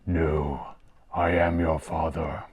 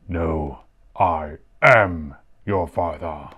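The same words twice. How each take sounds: First: The word 'am' carries no special stress. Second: The word 'am' is strongly stressed. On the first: "In English, he says" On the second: "he emphasizes the am part of it"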